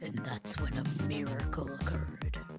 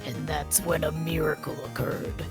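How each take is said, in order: First: The line is spoken quietly. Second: The line is spoken loudly.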